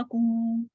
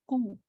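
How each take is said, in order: First: कू held out long; wrongly long U. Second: कू cut short, half a count. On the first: Teacher shows what not to do, over-long कू. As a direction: stretch the vowel of कू too far. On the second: Teacher shows the right reading, short कू. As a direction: keep the vowel of कू brief. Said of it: "not long". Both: Shown as a demonstration.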